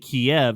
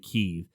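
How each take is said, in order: First: It is pronounced the Russian way. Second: It is pronounced the Ukrainian way. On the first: "the Russians would say Kiev" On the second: "the Ukrainians would say Kiev"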